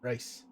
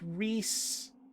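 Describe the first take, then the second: First: The vowel sounds like 'eye'. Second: The vowel sounds like 'ee'. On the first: The speaker calls it wrong. "doesn't know how to pronounce that name, so his name is actually Rice" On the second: The speaker calls it right. "it's like Reese"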